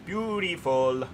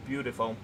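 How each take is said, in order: First: Slow, savoured, slightly higher Beautiful; a long dreamy Beautiful; drawn-out admiring. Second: Said in the usual way. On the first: Acted. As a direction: let Beautiful melt out slowly. Admiring the new train pack.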